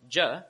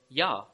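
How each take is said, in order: First: The syllable begins with a J sound. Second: The syllable begins with a Y sound. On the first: The speaker calls it wrong. "is not pronounced as j" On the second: The speaker calls it right. "it's actually pronounced as ya"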